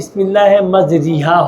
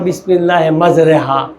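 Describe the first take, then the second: First: The vowel after the r sounds like i. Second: The vowel after the r sounds like e. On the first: It follows the regular Arabic word form. The speaker calls it wrong. "Arabic শব্দ অনুযায়ী বিসমিল্লাহে মাজরিহা হবে" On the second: It follows the original prophetic recitation. The speaker calls it right. "একটা দোয়া আমরা বলি না"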